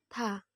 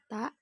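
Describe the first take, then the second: First: The consonant is released with audible breath. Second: The consonant is released without audible breath. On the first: The speaker calls it right. "ketika kita melafalkan dengan mengalirkan udara kita" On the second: The speaker calls it wrong. "jadi bukan ta"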